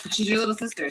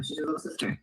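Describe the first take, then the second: First: Said in the usual way. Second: Whispered aside, softer. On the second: Shown as a demonstration. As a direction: lean in and whisper it under the breath.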